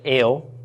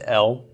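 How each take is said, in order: First: The vowel is a long 'ay' sound. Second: The vowel is a short 'eh' sound. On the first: "I would pronounce it Ale for the long A of the Tzera" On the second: "you'll hear this also pronounced El"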